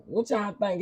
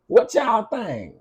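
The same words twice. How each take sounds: First: Said in the usual way. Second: Teasing question. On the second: Real, not acted.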